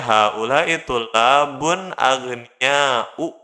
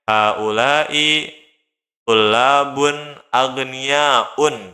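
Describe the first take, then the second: First: The last word ends in a plain vowel. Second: The last word ends with an added n sound. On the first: The speaker calls it right. "harus dibacanya" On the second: The speaker calls it wrong. "nggak boleh kita bilangnya"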